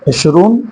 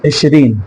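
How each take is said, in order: First: The word ends with an 'oon' sound. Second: The word ends with an 'een' sound. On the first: This is the formal standard Arabic form. "ये फुसहा अरबी में इशरून बोला जाता है" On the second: This is the everyday spoken Arabic form. "लोकल अरबी के अंदर इशरीन बोला जाता है"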